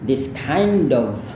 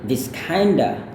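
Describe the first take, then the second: First: 'Kind of' is said as two full words. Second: 'Kind of' is run together as 'kinda'. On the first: It suits a formal situation. "kalau mau lafalkan secara formalnya" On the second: It is casual, fast speech. "kalau kita ngomong dengan lebih cepat"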